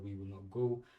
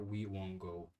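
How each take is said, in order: First: Each word is said fully and separately. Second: The words are squeezed into one short contraction.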